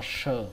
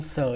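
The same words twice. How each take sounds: First: Final "sờ" with a hushing sh; correct sh sound. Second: First "sờ" with a thin hissing s; wrong pronunciation. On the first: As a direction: say "sờ" as a clear "sh" sound. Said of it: "mà nó là sờ". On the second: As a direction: say "sờ" on a plain s, not sh. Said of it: "Nó không sờ như vậy". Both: Shown as a demonstration.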